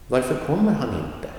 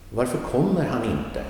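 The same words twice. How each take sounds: First: Kommer lifted higher, varför and inte short and light; Varför kommer han inte, leaning into kommer; stress on kommer. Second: Varför kommer han inte with kommer carrying the weight; model sentence. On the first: Teacher repeating the sentence to show the stress on kommer. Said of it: "Key main verb". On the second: Teacher giving a last example sentence, kommer stressed. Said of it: "one last sentence using another question word". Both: Shown as a demonstration.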